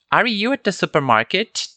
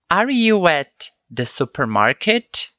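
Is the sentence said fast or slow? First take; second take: fast; slow. First: It is said quickly with the words run together. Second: It is said slowly with clear separate words. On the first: "Naturalmente ficaria assim, ó" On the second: "Falei um pouco mais pausadamente para entendermos"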